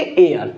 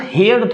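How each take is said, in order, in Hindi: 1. शब्द स्वर से शुरू होता है, इसमें h नहीं है। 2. शब्द h की आवाज़ से शुरू होता है। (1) "इसको पढ़ते एयर" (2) "अब यो हेयर थोड़ी पढ़ेंगे"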